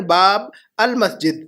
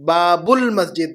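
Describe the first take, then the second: First: "باب المسجد" split as baab, al-masjid; separated pronunciation. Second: "باب المسجد" run together as baa-bul-masjid, slowly; joined pronunciation. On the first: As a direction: sound the "al" of "المسجد" clearly, apart from "باب". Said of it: "المسجد کے اندر الف لام ہے". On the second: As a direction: link "باب" into "المسجد" with a u sound, drawn out. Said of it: "جیسے ہم کہہ رہے ہیں". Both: Shown as a demonstration.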